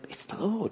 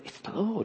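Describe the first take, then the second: First: It is whispered quietly. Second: It is whispered quietly.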